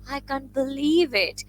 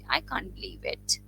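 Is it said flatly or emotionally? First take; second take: emotionally; flatly. First: It is said with strong, excited emotion. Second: It is said flatly, like a plain statement.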